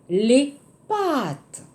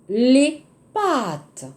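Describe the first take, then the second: Both takes have the same delivery.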